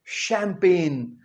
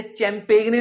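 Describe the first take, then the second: First: The right way, शैंपेन, drawn out; correct pronunciation. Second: चैंपेगने read letter by letter as "chaim-peg-ne"; the wrong, spelled-out way, चैंपेगने; spelling-based mispronunciation. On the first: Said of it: "ये क्या है?". (शैंपेन का सही उच्चारण, धीरे से) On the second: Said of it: "नहीं कहना". (चैंपेगने, गलत अक्षरशः उच्चारण) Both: Shown as a demonstration.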